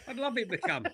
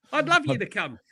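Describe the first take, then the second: First: Softer, laughing through the words. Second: Said in the usual way. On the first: Real, not acted. Correcting himself about the friend joining, laughing softly. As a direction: chuckle as you repeat it.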